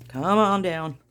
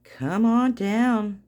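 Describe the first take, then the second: First: Said in the usual way. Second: Slow game-show drawl. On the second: Shown as a demonstration. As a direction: stretch it out slow and loud, like a game-show host.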